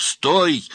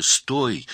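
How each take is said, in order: First: Much higher, louder cry; astonished shout. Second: Higher, raised call; astonished shout. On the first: Man chasing fleeing girl, shouting loudly. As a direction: shout harder after someone running away. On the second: Astonished man calling to fleeing girl, shouting. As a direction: call out to halt someone. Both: A narrator's reading. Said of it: "закричал изумлённый Стольников".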